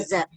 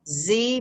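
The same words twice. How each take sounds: First: The letter name is said as zed. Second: The letter name is said as zee. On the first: "British English would say Z" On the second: "is American English"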